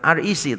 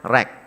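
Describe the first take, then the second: First: It is spelled out letter by letter. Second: It is said as a single word, rek. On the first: It follows how other churches name themselves. "bukan R E C" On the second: It is easier to remember, like a local song. "tapi bacanya R E C"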